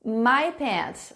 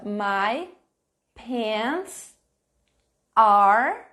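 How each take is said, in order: First: Said in the usual way. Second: "My pants are" said slowly, word by word, "are" pushed out loud; teacher modelling "My pants are" slowly with pauses; careful pronunciation. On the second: Shown as a demonstration. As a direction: spell out "pants" clearly. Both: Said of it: "Olha só a minha pronúncia".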